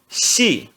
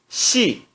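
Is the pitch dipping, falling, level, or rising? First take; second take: falling; falling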